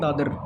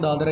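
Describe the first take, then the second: First: The word ends on the r sound. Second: The word ends with an a vowel sound. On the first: "इसको पढ़ेंगे दादर" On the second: "लिखेंगे दादरा ही"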